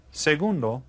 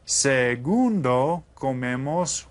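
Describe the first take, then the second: First: Said in the usual way. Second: Segundo drawn out slowly with a questioning rise; slow prompting word. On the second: Shown as a demonstration. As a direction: stretch it and rise to invite the answer. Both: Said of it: "tell me what the second one is".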